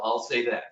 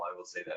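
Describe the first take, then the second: First: Said in the usual way. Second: I will say that, dropped much lower and softer; under-the-breath repeat. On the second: Real, not acted. Guide muttering an aside about the steep hike, much softer.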